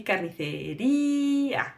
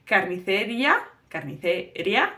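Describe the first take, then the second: First: Carnicería with stress on the í, splitting -ía in two; correct stress. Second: Carnicería said without the split stressed í, rising at the end; the wrong way to say carnicería; mispronounced carnicería. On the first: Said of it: "That's the correct spelling". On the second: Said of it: "So it's not going to be". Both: Shown as a demonstration.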